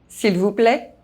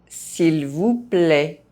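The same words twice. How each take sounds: First: The phrase is spoken fast. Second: The phrase is spoken at normal pace. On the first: This is how native speakers say it. "fast, as a native speaker would do" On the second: This is the recommended way for learners to say it. "at a normal pace"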